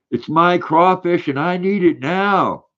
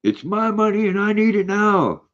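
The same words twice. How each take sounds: First: High, slow whiny ad voice; mimicking a pushy commercial plea; commercial parody. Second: Very high, whiny ad catchphrase; imitating the famous money commercial; commercial impression. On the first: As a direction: whine it like the old TV ad. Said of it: "I know that commercial". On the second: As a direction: squeal it like the TV ad character. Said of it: "I love that commercial".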